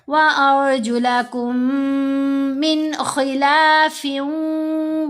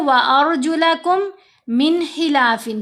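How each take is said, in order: First: The m sounds merge into one long nasal hum. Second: The two m sounds are pronounced separately. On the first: The speaker calls it right. "ये गुन्ना है, कुम लंबा किया ना" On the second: The speaker calls it wrong. "ये गलत है, क्योंकि दोनों को अलहदा अलहदा कर दिया"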